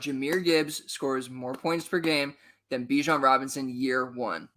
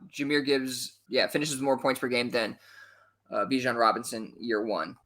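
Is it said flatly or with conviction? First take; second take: conviction; flat. First: It is said with feeling and conviction. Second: It is said flatly and hesitantly.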